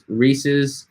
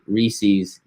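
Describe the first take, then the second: First: It sounds like the possessive of Reese. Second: It does not sound like the possessive of Reese. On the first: The speaker calls it right. "saying it correctly as Reese's, as belonging to Reese" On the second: The speaker calls it wrong. "not as some weirdo says it"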